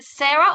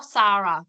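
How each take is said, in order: First: Sarah said as SAIR-uh; first pronunciation of Sarah. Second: Sarah said as SAH-ruh; alternative pronunciation of Sarah. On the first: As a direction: say Sarah with an 'air' vowel in the first syllable. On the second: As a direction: say Sarah with a long 'ah' in the first syllable. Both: Shown as a demonstration. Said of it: "I don't wanna mispronounce your name".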